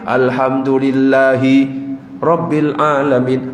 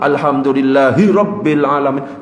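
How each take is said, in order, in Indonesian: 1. Ada jeda singkat yang memisahkan alhamdulillahi dari rabbil. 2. Alhamdulillahi langsung menyambung ke rabbil tanpa jeda. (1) "harus dipisah" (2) "Kalau disambung"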